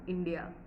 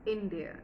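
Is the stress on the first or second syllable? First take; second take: second; first. First: The stress is on the second syllable. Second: The stress is on the first syllable. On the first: The speaker calls it wrong. "not dear stress" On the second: The speaker calls it right. "It's going to be India stress"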